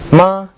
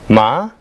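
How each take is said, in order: First: The pitch stays high and level. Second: The pitch rises from mid to high. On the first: It means mother. "meaning mother" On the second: It means hemp. "meaning hemp"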